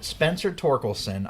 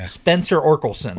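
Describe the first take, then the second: First: The surname begins with a T sound. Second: The surname begins without a T sound.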